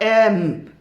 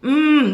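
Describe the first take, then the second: First: The consonant is said with a vowel before it. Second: The consonant is said alone without a vowel. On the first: The speaker calls it wrong. "not M" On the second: The speaker calls it right.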